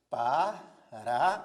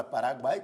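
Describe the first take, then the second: First: "Paraguai" slowly, syllable by syllable, Pa-ra-guai; split into syllables. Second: Said in the usual way. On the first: Shown as a demonstration. Teacher splitting "Paraguai" into syllables for the class, slow and deliberate. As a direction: spell out "Paraguai" in slow, separate beats. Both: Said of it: "Dividamos as sílabas da palavra Paraguai".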